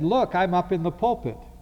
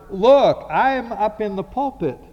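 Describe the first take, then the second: First: It is said at a normal, quieter volume. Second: It is said much louder. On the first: Calling for attention the first time. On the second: Insisting after being ignored.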